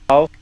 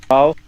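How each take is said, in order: No difference in how they are said.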